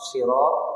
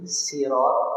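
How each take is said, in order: First: The word begins with an emphatic, heavy s. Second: The word begins with a plain, light s. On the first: "dengan shad" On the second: "dengan sin"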